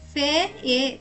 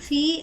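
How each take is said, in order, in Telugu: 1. ఈ పదం రెండు అచ్చు శబ్దాలుగా విడిపోతుంది. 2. ఈ పదంలో ఒకే దీర్ఘ ee అచ్చు ఉంది. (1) "మనం పదాలను ఉచ్చరించడం నేర్చుకున్న ప్రకారం ఎఫ్ఈఈ ఉచ్చారణ ఫే ఏ కావాలి, కానీ కాదు" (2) "ఎఫ్ఈఈ ఉచ్చారణ ఫీ అవుతుంది"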